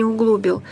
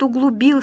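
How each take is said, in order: First: "углубил" stressed on "глу"; wrong middle stress. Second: "углубил" stressed on final "бил"; stress as demonstrated. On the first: Teacher rejecting the mistake, "углубил" stressed on "глу". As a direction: put the weight on the middle syllable of "углубил". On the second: Teacher giving an example sentence, "углубил" stressed on "бил". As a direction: land on the last syllable of "углубил". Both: Shown as a demonstration. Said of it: "Конечно, не углубил".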